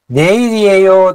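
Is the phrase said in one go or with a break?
one go. The phrase is said in one unbroken run. The speaker calls it wrong. "ネイリエ用って発音すると難しいから"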